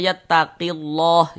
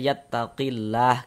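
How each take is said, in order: First: The L in 'llah' is heavy and dark. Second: The L in 'llah' is thin and light. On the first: The speaker calls it wrong. "Jangan dibaca yattaqillah, jangan" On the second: The speaker calls it right. "kita tipiskan"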